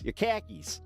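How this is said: It is said in a Midwestern accent.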